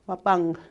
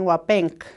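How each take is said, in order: First: The word ends with a soft 'ng' sound. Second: The word ends with a hard 'nk' sound. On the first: The speaker calls it right. "it's really wapang. That N K together makes that G sound" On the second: The speaker calls it wrong. "they're reading with their English eyes"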